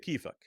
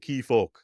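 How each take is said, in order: First: The final vowel sounds like an open 'a'. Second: The final vowel sounds like a rounded 'o'. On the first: This is the common everyday form. "a short way of saying "How are you"" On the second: This is the local mountain dialect form. "In in Nepki, we say"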